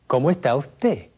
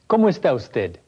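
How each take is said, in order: First: The s in usted sounds like h. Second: The s in usted sounds like s.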